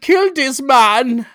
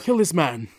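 First: It is said in a clear, exaggerated German accent. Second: It is said in a vague, non-specific foreign accent. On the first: "Otherwise, I would have said" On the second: "That was just an accent. That wasn't particularly German"

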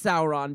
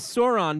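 First: The first vowel is an 'ow' sound. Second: The first vowel is not an 'ow' sound. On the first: It follows the original literary source. "say it's Sauron because I know he's named after the Lord of the Rings character" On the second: It follows the usual dinosaur-style reading. "everybody says Sauron because he's a dinosaur"

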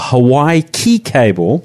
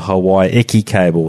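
First: The middle word sounds like one syllable, 'key'. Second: The middle word sounds like two syllables, 'eki'. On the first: The speaker calls it wrong. "I called it the Hawaii Key cable" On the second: The speaker calls it right. "it was referred to as the Hawaii Eki cable"

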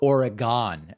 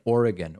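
First: The word is said in a mimicked, odd way. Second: The word is said the usual local way.

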